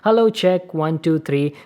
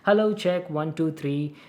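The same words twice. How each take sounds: First: The voice is recorded about one foot away. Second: The voice is recorded about three feet away. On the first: "from very close distance of around one feet" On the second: "around like three feet distance away from the microphone"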